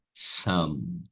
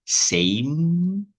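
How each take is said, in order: First: "Some" lower with short uh; teacher contrasts "Some" lower; contrast demo. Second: "Same" said higher with ei vowel; teacher contrasts "Same" with rising tone; contrast demo. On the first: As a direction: drop into "Some" with closed m. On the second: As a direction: lift "Same" to set it apart. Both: Shown as a demonstration. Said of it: "É diferente".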